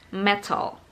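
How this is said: It is said with a British accent. "British says"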